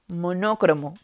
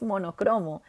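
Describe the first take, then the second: First: The stress is on the second syllable. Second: The stress is on the third syllable. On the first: The speaker calls it wrong. "la mayoría de gente dice monócromo, pero no es así" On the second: The speaker calls it right. "la palabra es monocromo"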